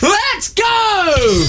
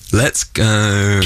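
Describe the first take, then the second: First: It is said with lively enthusiasm. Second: It is said flatly, without energy.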